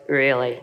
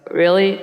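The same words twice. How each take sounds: First: Low falling awe; amazed really. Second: Loud, rising doubt; skeptical really. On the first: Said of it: "And now I go". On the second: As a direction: scoff at the claim. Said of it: "And I used to go". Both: Shown as a demonstration.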